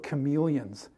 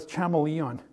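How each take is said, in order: First: The word is said with the standard pronunciation. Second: The word is said with a misread pronunciation. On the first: This is how the word was heard on television. The speaker calls it right. "he kept talking about chameleons" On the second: This is how the word was guessed from reading it. The speaker calls it wrong. "I was always pronouncing it as a chameleon"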